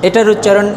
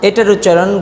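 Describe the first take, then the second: Both takes have the same delivery.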